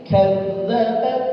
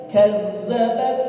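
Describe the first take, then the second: The two takes are said the same way.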